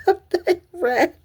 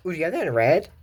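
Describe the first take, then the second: First: Much higher, squeaky little voice; playful squeaky echo of the line; high squeaky repeat. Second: Said in the usual way. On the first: Retold or imitated. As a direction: squeak the line out like a cartoon character.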